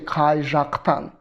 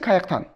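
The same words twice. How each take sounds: First: The zh sound is clearly pronounced. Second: The zh sound is dropped. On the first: This is the standard, official form. "the literal norm means you will never drop your zh" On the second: This is the casual, colloquial form. "Qayaqtan is okay if um, in a in a, in a colloquial speech"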